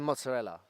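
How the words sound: The word is said with a non-Italian accent. The speaker calls it wrong. "the Italians, they don't say mozzarella"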